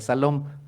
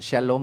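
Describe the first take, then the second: First: The word begins with an s sound. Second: The word begins with an sh sound. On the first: The speaker calls it right. "aunque se pronuncia Salom" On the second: The speaker calls it wrong. "no sabemos cómo pronunciar, pues decimos Shalom"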